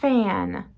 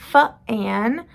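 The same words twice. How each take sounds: First: The f flows straight into the vowel. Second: A small extra vowel follows the f sound. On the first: The speaker calls it right. "we say fan. There's no uh in there" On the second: The speaker calls it wrong. "We don't say f-an"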